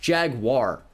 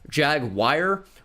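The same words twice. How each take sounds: First: The ending does not sound like wire. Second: The ending sounds like the word wire. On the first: The speaker calls it right. "It's Jaguar" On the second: The speaker calls it wrong. "Why would that be wire?"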